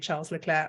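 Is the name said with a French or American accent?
American. The name is said with an American accent.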